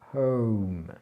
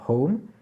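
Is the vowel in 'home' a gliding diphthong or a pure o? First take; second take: diphthong; pure o. First: The vowel glides into a second sound. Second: The vowel is one steady French o. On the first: The speaker calls it right. "à la fin, on finit là aussi par le son E" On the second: The speaker calls it wrong. "C'est pas"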